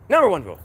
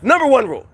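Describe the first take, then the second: First: Said in the usual way. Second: Number one rule said higher and louder, proclaimed; emphatic announcement. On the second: Shown as a demonstration. Stating the culture's top rule to listeners, emphatic.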